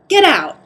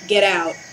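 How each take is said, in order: First: It is said in a polite, sweet tone. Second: It is said bluntly, without politeness.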